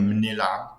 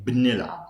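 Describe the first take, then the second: First: منلعب starting with an m-n cluster; m-n prefix. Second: بنلعب starting with a b-n cluster; b-n prefix. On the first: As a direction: say منلعب with m before the n. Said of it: "how I speak". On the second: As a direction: say بنلعب with b before the n. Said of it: "but some people say". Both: Shown as a demonstration.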